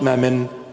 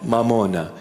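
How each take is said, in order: First: The word has two syllables ending in n. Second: The word has three syllables ending in a. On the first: The speaker calls it wrong. "It's not mammon" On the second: The speaker calls it right. "I teach you the proper pronunciation"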